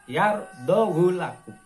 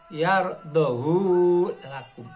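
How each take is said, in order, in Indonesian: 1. Vokal akhir pada hu dibaca pendek. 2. Vokal akhir pada hu dibaca panjang. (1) "bacaannya adalah baca pendek" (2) "Biasanya kita sering mendengar dibaca yardohu lakum. Hanya panjang"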